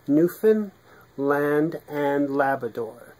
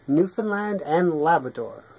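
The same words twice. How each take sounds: First: It is said slowly. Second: It is said at normal speed.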